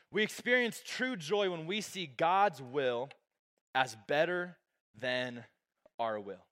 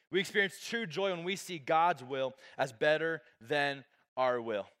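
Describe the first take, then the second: First: Slow emphasis. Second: Said in the usual way. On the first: Shown as a demonstration. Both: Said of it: "Number two is just".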